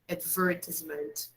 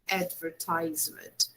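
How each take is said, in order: First: It is said with a British pronunciation. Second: It is said with an American pronunciation. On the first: "One is British" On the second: "sometimes in American English, you can also hear advertisement"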